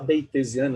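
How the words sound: It is pronounced in an English way. "posso falar beitesiano em inglês"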